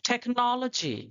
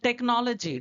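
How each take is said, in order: First: The t is breathy, with a puff of air. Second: The t is plain, with no puff of air. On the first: This is the English way of saying it. "मगर वो लोग बोलते हैं" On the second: This is the Indian way of saying it. "टा जैसे ही उच्चारण करते हैं"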